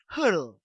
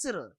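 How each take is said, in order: First: The name is said with a German-sounding pronunciation. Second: The name is said with an English pronunciation. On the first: This is how someone else says the name. The speaker calls it wrong. "He's like, Hurl" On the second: This is how the name's owner says it. The speaker calls it right. "no, it's Cyril"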